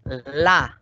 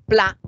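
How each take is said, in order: First: "la" lenta, sin P inicial; sílaba simplificada. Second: "pla" lenta, con P antes de L; sílaba completa. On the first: Retold or imitated. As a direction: imita al niño que dice "la" por "pla". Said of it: "si el niño dice la". ("la" alargada, solo con L) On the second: Shown as a demonstration. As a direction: articula entero el grupo de "pla". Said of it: "y no dice pla". ("pla" aislada, con P y L unidas)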